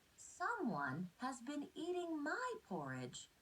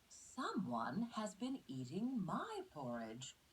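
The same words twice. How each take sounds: First: It is said in a tiny, small voice. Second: It is said in a medium-sized voice.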